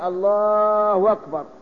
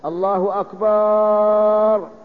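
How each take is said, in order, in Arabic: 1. صوت الواو يصل بين الكلمتين. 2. تُمد الحركة الثانية من akbar. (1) "بدل الهمزة واو" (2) "لأن أكبر جمع كبر"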